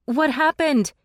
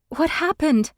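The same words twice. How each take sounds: First: High, loud alarmed question; shouted question in the dark. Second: High, loud breathless question; breathless worried question; rushed breath. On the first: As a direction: call out in alarm. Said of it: "Imogen shouted". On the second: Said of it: "I asked in a rushed breath". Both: A narrator's reading.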